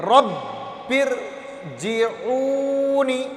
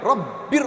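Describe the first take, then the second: First: رب ارجعونی stretched slowly, firm but without a jolt; teacher showing the correct firm reading; smooth firm tashdid. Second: رب ار snapped with a jolt, the wrong way; teacher showing the wrong jerky reading; jerky wrong tashdid. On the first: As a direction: hold the شدّ in ارجعونی steady and smooth. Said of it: "سختی تو ہو پر جھٹکے نہیں ہو". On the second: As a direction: jerk the ر in رب ار, the mistake to avoid. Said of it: "ایسے نہیں ہونا چاہیے". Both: Shown as a demonstration.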